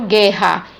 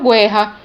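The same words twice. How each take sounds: First: No u sound is heard after the g. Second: A u sound is heard after the g. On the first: The speaker calls it right. "veja que eu não pronuncio o U, ... eu falo guerra" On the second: The speaker calls it wrong. "eu não falo guerra"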